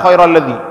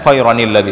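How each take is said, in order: First: The words join directly with no n sound. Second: An n sound with an i vowel links the words. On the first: The speaker calls it wrong. "itu salah khairal ladzi" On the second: The speaker calls it right. "huruf nun ini dibaca dengan khairanil ladzi"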